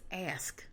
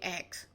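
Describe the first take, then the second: First: The s sound comes before the k sound. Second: The k sound comes before the s sound. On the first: The speaker calls it right. "it's ask" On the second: The speaker calls it wrong. "you say X"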